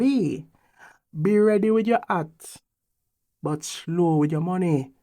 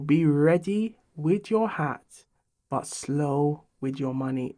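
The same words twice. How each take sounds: First: It is said in a Jamaican patois accent. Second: It is said in the speaker's plain accent.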